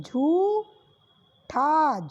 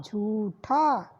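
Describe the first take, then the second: First: झूठा with a very slow long ऊ; slow drawn. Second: झूठा short, lower and falling; quick repeat. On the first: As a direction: stretch झूठा out. (झूठा को खींचकर) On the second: (झूठा जल्दी दोहराना) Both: Shown as a demonstration. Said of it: "झा पे बड़े ऊ की मात्रा लगी".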